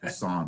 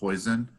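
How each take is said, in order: First: It does not sound like the word poison. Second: It sounds like the English word poison. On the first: The speaker calls it right. "the right pronunciation" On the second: The speaker calls it wrong. "Most students call it poison"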